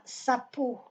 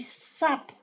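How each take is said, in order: First: Sapo with a full, stressed PO; wrong final stress. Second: Sap with strong SA, last vowel swallowed; stress on SA. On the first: Teacher shows the wrong sapo, stressing final PO. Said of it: "Ce n'est pas sapo". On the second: Teacher shows correct sapo, stress on first syllable. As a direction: hit SA and clip off the end of sap. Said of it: "On dit sap". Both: Shown as a demonstration.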